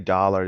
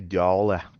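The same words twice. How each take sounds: First: It is said in a general, neutral accent. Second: It is said in a New York accent. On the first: "they don't say dollar" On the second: "they say dollar"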